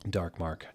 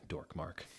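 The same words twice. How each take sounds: First: Said in the usual way. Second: "dork mark" with dork rhyming with fork; deliberately reads "dork"; mispronounced. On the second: Shown as a demonstration. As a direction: say "dork" not dark.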